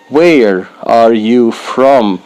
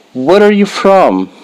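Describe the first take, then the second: First: "Where are you from?" said slowly and evenly; slow careful model. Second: "Where are you from?" said higher, with quick natural flow; lively natural take. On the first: Teacher to beginners, slow careful model. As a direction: spell it out slowly for learners. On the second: Teacher showing the everyday version, higher and brisk. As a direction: ask it like a real friendly question. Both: Shown as a demonstration. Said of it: "slow model then natural".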